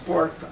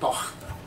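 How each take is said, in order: First: It is said in a São Paulo accent. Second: It is said in a Rio de Janeiro accent.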